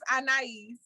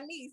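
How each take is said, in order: First: The name is said the formal full way. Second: The name is said the casual everyday way. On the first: This is the name's proper form. The speaker calls it right. "but it's Anais" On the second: This is how the speaker usually says it. The speaker calls it wrong. "I just say Anise"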